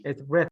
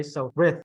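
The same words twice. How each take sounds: First: "rith" ending in a th sound; pron. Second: "rith" with th, tongue between the teeth; pron. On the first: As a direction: end "rith" with the tongue between the teeth. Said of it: "when I end". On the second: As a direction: say "rith" ending in a clear th. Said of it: "your tongue should be in the middle of your teeth". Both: Shown as a demonstration.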